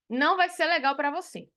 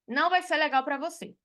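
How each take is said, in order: Both takes have the same delivery.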